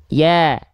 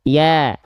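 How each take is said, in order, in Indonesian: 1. Vokal ini diucapkan dengan bibir tersenyum dan melebar. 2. Vokal ini diucapkan dengan bibir tersenyum dan melebar.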